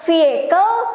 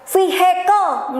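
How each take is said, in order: First: The h sound is not pronounced. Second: The h sound is pronounced strongly. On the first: The speaker calls it right. "H-nya nggak disebutin" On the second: The speaker calls it wrong. "H-nya ini nggak terlalu kayak vehicle"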